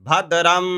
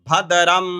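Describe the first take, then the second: The two takes are said the same way.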